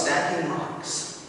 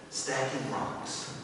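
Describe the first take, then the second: First: Said in the usual way. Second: Slow, much softer trailing repeat; fading quiet. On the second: A narrator's reading. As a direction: let the words fade away. Narration repeats phrase, fading.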